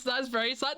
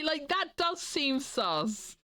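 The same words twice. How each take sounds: First: Said in the usual way. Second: Suspicious. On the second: Acted. Slow suspicious repeat.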